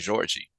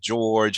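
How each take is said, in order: First: It is said with a Brazilian pronunciation. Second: It is said with an American pronunciation. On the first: "Brazil it sounds like Georgie" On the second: "Americans would just say George"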